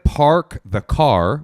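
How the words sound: The r sounds are clearly pronounced. "which is what we say"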